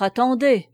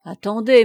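First: Louder call, falling at the end; firm second call to wait. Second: Louder call to stop the men. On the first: Chantepie stops the soldiers, firm and loud. Boy calls the soldiers back. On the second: Chantepie calls the men back, loud. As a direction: hold them back with your voice. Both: A narrator's reading.

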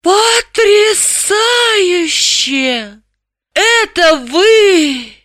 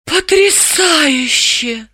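First: Very high, hugely drawn-out rapture; soaring, swooning exclamation; stunned amazement. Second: High, very slow, dazed wonder; drawn-out stunned marvelling; awed murmur. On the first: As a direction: stretch every vowel in dazed wonder. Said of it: "не сводя очумелых глаз". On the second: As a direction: breathe it out in amazement. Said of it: "прошептала Далила". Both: A narrator's reading.

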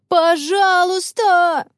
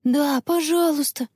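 First: High, drawn-out pleading cry; begging shout. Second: Put-on higher, gentle child's plea; pleading request. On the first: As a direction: stretch it out like kids wailing together. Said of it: "закричали хором все четверо". (протяжный умоляющий крик) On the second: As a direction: ask sweetly, without shouting. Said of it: "попросила Анна". (просительно, высоким голосом) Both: A narrator's reading.

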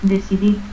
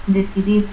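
First: Decidir as "desidit"; S for C and a stop for final R in Decidir; altered final R. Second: Said in the usual way. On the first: Shown as a demonstration. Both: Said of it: "confusión de R y T al final".

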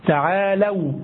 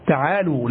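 First: تعالوا said as "ta'aalaw", fatha on the lam; تعالوا with open a on the lam before w; teacher models تعالوا as taʕaalaw; correct vowel. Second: تعالوا said as "ta'aalu", damma on the lam; تعالوا with the forbidden taʕaalu ending; wrong vowel. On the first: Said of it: "بفتح اللام". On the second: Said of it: "يك أن تقول". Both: Shown as a demonstration.

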